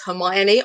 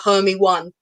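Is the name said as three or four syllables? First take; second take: four; three. First: The name is said with four syllables. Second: The name is said as three syllables, Hermy-one. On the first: The speaker calls it right. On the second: The speaker calls it wrong.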